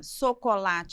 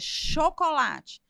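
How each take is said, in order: First: The word is said with a childlike mispronunciation. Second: The word is said with standard adult pronunciation. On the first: This is how a small child says it. The speaker calls it wrong. "não é chocolate" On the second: This is the correct adult form. The speaker calls it right. "é chocolate"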